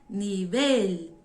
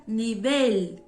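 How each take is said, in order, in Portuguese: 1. A tônica fica na última sílaba. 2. A tônica fica na última sílaba.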